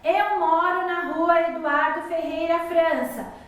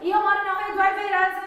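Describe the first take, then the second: First: It is said slowly, with pauses for breath. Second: It is rushed together without any pause for breath. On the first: The sentence has commas. The speaker calls it right. "Vocês viram que foi tudo mais pausadamente?" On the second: The sentence has no comma. The speaker calls it wrong. "Eu começo a falar um monte de coisa e eu não consigo nem respirar"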